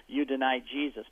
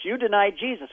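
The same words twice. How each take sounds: First: Said in the usual way. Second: Higher, louder accusation; accusing. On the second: Retold or imitated. Apostles accusing Peter, higher and louder. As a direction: throw it in his face.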